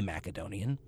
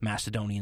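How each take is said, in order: First: The c is said as a hard k sound. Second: The c is said as a soft s sound. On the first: This follows the original Greek sound. "using the actual K in place of the C" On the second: This is the usual modern Western way. "the way we say it here in the modern West due to a softening of the Greek"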